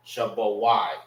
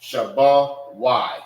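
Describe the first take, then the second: First: "Shabbat Y" at normal speed, falling on Y; now say "Shabbat Y" naturally; normal pace. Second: "Shabbat Y" drawn out slowly, a little louder; slow model. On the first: Teacher repeating the word normally. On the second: Teacher slowly modelling the word. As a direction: stretch out "Shabbat Y" slowly for the class. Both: Shown as a demonstration. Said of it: "Don't say".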